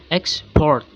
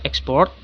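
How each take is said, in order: First: "Export" as a verb, second syllable stressed. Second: "export" as a noun, first syllable stressed. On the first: Lecturer shows the verb in a noun-verb pair, stressed "Export". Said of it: "is a verb". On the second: Lecturer contrasts the noun with the verb, first-syllable stress on "export". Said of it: "is a noun". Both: Shown as a demonstration.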